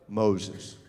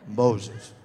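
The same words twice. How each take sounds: First: It is said in a put-on deep voice. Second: It is said in a put-on deep voice.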